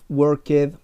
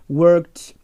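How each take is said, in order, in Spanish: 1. El final se pronuncia como una sílaba añadida. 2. El final es un sonido consonante simple. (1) "que muchos se equivocan diciendo" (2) "se le agrega una T o una D al sonido"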